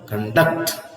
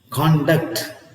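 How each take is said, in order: First: The stress is on the second syllable. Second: The stress is on the first syllable. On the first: "here it is in the second syllable" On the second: "when you have the stress on the first syllable?"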